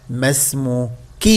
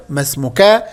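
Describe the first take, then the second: First: ما اسمكِ slow, lower and soft, ending on ki; feminine kasra. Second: ما اسمكَ ending clearly in -ka; masculine fatha. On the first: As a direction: ask her ما اسمكِ gently with kasra. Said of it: "أسألها أقول لها". (ما اسمكِ بكسر الكاف بصوت منخفض) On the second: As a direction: ask him ما اسمكَ with a fatha on the kaf. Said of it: "إذن مذكر". (ما اسمكَ بفتح الكاف) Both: Shown as a demonstration.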